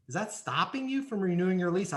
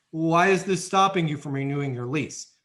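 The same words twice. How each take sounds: First: Asked gently, with open curiosity; a genuinely puzzled check, not a challenge; curious sincere question. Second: A pushy why question; demanding why. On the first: Leasing agent gently checking the resident's real objection, sincerely curious. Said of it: "throw it out like this". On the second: Agent wrongly pressing the resident on why, demanding. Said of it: "That is not what I told you to say". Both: Shown as a demonstration.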